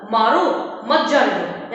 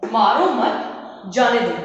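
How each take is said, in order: First: "मारो", a clear pause, then "मत जाने दो" together; pause after मारो. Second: "मारो मत" together, pause, then "जाने दो"; group मत with मारो, break before जाने; pause after मत. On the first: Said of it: "के बाद में लगाया हुआ है". ("मारो" के बाद विराम, फिर "मत जाने दो" एक साथ) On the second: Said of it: "यानी मत के बाद में". ("मारो मत" के बाद विराम, फिर "जाने दो") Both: Shown as a demonstration.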